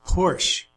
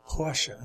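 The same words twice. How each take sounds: First: Said in the usual way. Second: "Porsche" in two syllables, the German way; German pronunciation. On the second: Shown as a demonstration. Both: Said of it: "as they say in German".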